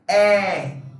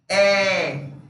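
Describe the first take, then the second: First: The vowel is open, with the mouth wider. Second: The same.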